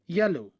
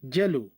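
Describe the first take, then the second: First: It begins with a y sound. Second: It begins with a j sound.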